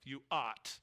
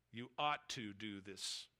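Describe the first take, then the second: First: Said in the usual way. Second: Ought drawn out slowly and pressed down; emphatic stress on ought. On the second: Shown as a demonstration. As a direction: lean hard and slow on ought like a duty. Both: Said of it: "That is a strong, emphatic".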